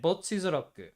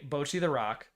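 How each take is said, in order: First: It is said with a Japanese pronunciation. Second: It is said with an English pronunciation. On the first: "in Japanese I say" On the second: "in English I say"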